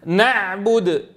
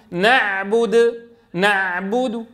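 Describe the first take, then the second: First: نعبد cut off on a clean sukun; plain stop demo. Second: نعبد said slowly, ending on a faint trace of the damma; stop demo. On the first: Teacher showing a plain stop. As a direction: end نعبد sharply with no vowel. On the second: Teacher showing the ways to stop on a word. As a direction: let نعبد fade on a barely voiced damma. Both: Shown as a demonstration. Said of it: "فيصح أن نقول".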